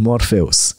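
The name is pronounced the Romanian way. The speaker calls it wrong. "ăsta pronunța ca românii"

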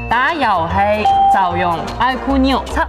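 It is spoken in a Cantonese accent. "广东话"

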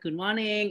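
It is said with an Indonesian accent. "dosen kita yang yang orang Indonesia kan ada good morning"

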